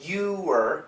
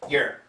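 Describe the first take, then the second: First: The word is said slowly as two full syllables. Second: The word is said quickly as one short syllable. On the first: "perfect pronunciation" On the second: "the typical American pronunciation"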